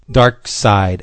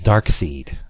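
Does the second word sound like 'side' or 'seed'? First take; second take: side; seed. First: The second word sounds like 'side'. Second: The second word sounds like 'seed'. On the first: The speaker calls it right. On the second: The speaker calls it wrong.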